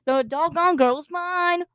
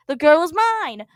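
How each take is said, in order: First: Slow, high sung quote; sung line. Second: Slow, loud, half-sung line; sung, belt it like the song; half-sung claim. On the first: Paul crooning the song line at John. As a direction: croon it like the record. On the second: Paul claiming the girl by half-singing the song. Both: Acted. Quoting the Beatles-era song.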